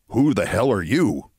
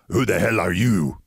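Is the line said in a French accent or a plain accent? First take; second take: plain; French accent. First: It is said in the speaker's plain accent. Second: It is said in a French accent.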